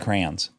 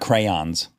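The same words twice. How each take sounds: First: The word is said as one syllable. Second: The word is said as two syllables. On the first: This is how people here say it. The speaker calls it right. "We say new box of crayons" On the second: This is not how people here say it. The speaker calls it wrong. "not crayons"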